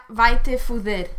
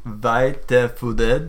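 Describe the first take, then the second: First: Vai te fuder said as native Portuguese, vai te fu-DER; Portuguese pronunciation. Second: Vai te fuder repeated slowly by a learner, x0.6. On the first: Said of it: "What was "go fuck yourself"?". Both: Shown as a demonstration.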